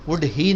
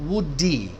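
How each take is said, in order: First: The two words are said separately with h. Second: The d runs straight into the second word. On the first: The speaker calls it wrong. "वुड ही नहीं कहोगे" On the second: The speaker calls it right. "ऐसे connect करना है"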